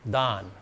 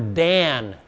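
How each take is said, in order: First: The vowel is the open ah of father. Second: The vowel is the flat a of cat. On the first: This is the original Hebrew form of the name. The speaker calls it right. "It's da. Don" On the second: This is the English form of the name. The speaker calls it wrong. "That's anglicized"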